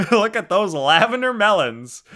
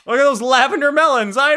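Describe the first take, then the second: First: Said in the usual way. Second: Excited joke. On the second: Real, not acted. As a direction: Look at those lavender melons, high and loud with a falling end on melons. Joking about own drawing.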